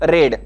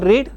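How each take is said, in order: First: The vowel is short, like 'red'. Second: The vowel is long, like 'reed'. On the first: It is the past tense form. "साध्या भूतकाळामध्ये वापरतो read" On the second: It is the present tense form. "simple present tense मध्ये वापरतो read"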